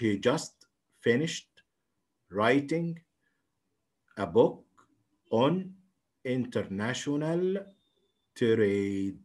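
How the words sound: Each word is read separately, with breaks.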